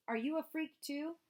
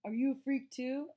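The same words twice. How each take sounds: First: 1 sneering taunt. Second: 1 mocking the bully. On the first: A narrator's reading. Bully sneering at Amos. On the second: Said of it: "He was like".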